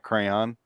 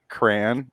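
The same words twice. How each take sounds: First: The word is said with a non-Midwestern pronunciation. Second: The word is said with a Midwestern pronunciation. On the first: This is how the speaker does not say it. "not crayon" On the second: This is how the speaker personally says it. "I also say crayon, ... Apparently, that's a Midwest thing"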